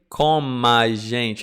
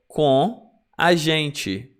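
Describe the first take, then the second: First: The m of com links into the next vowel. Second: Com stays apart from the next vowel. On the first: The speaker calls it wrong. "Notice I don't say com a gente" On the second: The speaker calls it right. "I will not link the sounds in this case"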